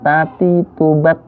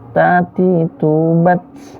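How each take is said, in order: First: The final consonant stops cleanly without any hiss. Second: The final consonant ends with a breathy hiss. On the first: The speaker calls it wrong. "nggak begini" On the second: The speaker calls it right. "Dia berdesis di akhirnya"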